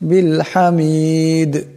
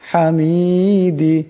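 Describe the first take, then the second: First: The final d is vowelless with an echoing bounce. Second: The final d is followed by a short i vowel. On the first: The reader stops at this word. "এখানে দম চললে এই দাল সাকিন হয়ে যাবে, দাল কলকলার হরফ আওয়ার সাথে একটি টক্কর খাবে" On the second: The reading continues without stopping. "দাল জের দি"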